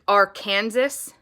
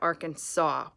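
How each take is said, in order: First: The ending sounds like the word Kansas. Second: The ending sounds like the word saw. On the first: The speaker calls it wrong. "even though it's spelled Arkan, like Arkansas" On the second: The speaker calls it right. "You pronounce it Arkansas"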